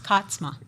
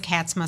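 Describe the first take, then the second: First: The name is said the original Frisian way. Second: The name is said the common English way. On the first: This is how the family's Frisian name is truly pronounced. "actually is pronounced Katzma" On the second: This is how most people say the name. "everybody does Katzma"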